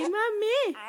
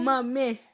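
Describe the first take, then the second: First: Mommy said higher, clearly, falling at the end; high sing-song model word. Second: Said in the usual way. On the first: Shown as a demonstration. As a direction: model Mommy for a baby, lifted and slow.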